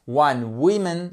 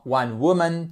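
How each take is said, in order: First: WOMAN mistakenly said like women, WIMIN; wrong pronunciation. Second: WOMAN with a rounded WU first syllable; correct pronunciation. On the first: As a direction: say WOMAN with a short i in the first syllable. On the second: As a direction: say WOMAN as WU-mun. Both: Shown as a demonstration. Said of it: "non, non".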